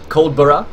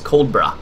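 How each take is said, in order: First: Every syllable is said fully and clearly. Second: The middle syllable is weakened almost to nothing.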